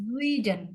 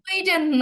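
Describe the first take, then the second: First: The word begins with a voiced z sound. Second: The word begins with a voiceless s sound. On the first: The speaker calls it right. "বর্গীয় জয়ের মতো করে উচ্চারণ হবে" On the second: The speaker calls it wrong. "সুইডেন না"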